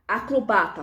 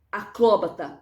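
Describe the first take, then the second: First: "Acrobata" stressed on BA; a-cro-BA-ta, weight on BA in "Acrobata"; paroxytone stress. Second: "Acróbata" stressed on CRÓ; a-CRÓ-ba-ta, open stressed CRÓ in "Acróbata"; proparoxytone stress. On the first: Teacher showing the first form, penultimate stress on "Acrobata". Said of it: "paroxítona". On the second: Teacher showing the second form, stress on CRÓ in "Acróbata". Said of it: "proparoxítona". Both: Shown as a demonstration.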